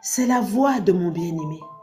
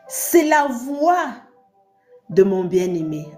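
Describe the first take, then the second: First: It is read softly, in a gentle voice. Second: It is read plainly, not especially softly.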